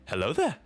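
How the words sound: It imitates the animated Clone Wars Obi-Wan voice.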